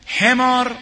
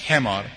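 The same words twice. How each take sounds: First: High, loud outcry of the word حمار; loud cry. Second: Said in the usual way. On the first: Acted. Preacher scornfully cries حمار at the enemy, loud. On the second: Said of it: "برگشت خطاب به دشمن گفت".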